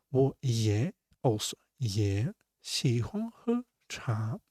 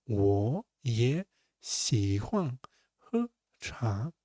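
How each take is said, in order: First: Said in the usual way. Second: 我也喜欢喝茶 said slowly, syllable by syllable, with 我 shifted to second tone; 천천히, 我 is said rising like a second tone; slow tone demo. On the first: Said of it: "repeat at normal pace". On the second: Shown as a demonstration. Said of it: "three in a row, ... transfer to second tone".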